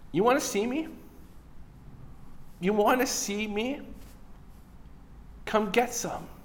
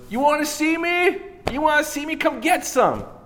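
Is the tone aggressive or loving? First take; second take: loving; aggressive. First: It is said in a loving, gentle tone. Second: It is said in an aggressive tone.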